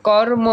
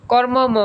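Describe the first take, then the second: First: কর্ম said as kor-mo, M sounded once; single M. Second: কর্মম said as kor-mo-mo; কর্মম with an extra mo tacked on; wrongly doubled M. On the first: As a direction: clear কর্ম with one final mo. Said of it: "দুইবার উচ্চারণ করা হবে না". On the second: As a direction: repeat the final mo in কর্মম. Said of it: "এরকম বলি আমরা?". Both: Shown as a demonstration.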